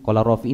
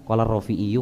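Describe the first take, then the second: First: The name ends in a bare 'i' sound. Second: The name ends in an added 'iyu' sound. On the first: The speaker calls it wrong. "ini kesalahan kita itu sering menyebut" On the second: The speaker calls it right. "padahal sebenar"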